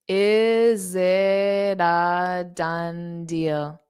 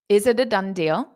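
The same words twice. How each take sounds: First: The sentence is said slowly and deliberately. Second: The sentence is said quickly and smoothly. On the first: "Now I'll say it slow" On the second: "I'll say it fast"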